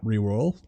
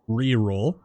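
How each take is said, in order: First: The R sound is slurred and unclear. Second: The R sound is pronounced clearly. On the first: The speaker calls it wrong. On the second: The speaker calls it right.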